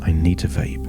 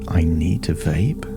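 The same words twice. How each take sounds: First: The voice falls at the end, like a statement. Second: The voice rises at the end, like a question. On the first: The need feels like a fixed fact. "In the past, it may have felt" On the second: The need is doubted and invites an answer. "where it's a question"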